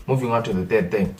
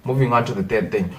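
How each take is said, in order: Both takes have the same delivery.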